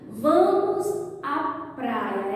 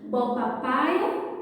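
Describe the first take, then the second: First: The R in praia is clearly pronounced. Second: The R in praia is dropped entirely. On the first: The speaker calls it right. "Essa é a maneira certa, adequada de falar" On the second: The speaker calls it wrong. "e esquecemos o R"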